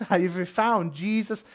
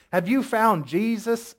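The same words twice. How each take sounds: First: Imitated Midwestern woman's accent; second attempt at a Midwestern accent, less Southern. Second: Put-on Midwestern accent slipping into Southern; attempted Midwestern accent. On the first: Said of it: "she had that Midwestern accent". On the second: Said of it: "That's Southern".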